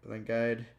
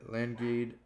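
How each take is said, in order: First: Landguide said as "LAN-guide"; long-i second syllable. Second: Landguide said as "LAN-gade"; long-a second syllable. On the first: Word list, second try at word. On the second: Word list, tries two pronunciations. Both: Real, not acted.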